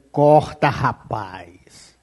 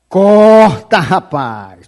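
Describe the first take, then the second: First: Low, soft, almost muttered warning; quiet warning. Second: Shouted command. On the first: Preacher warning a man to cut ties, hushed and grave. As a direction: say it under your breath, grave and low. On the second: Preacher ordering a man to cut ties, shouting. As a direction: bark it out like an urgent order. Preacher repeats warning twice. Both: Real, not acted.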